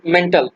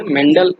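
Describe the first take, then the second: First: मेंटल said with a hard T, like the English word mental; wrong pronunciation. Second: मेंडल said with a voiced D, not a T; correct pronunciation. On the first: Teacher showing students the common mispronunciation, मेंटल with a hard T. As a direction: say मेंटल with a T, the way people get it wrong. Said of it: "तो मेंटल इसको नहीं बोलेंगे". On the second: Teacher giving students the proper name, मेंडल with a voiced D. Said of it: "मेंडल इनका नाम है proper तरीके से". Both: Shown as a demonstration.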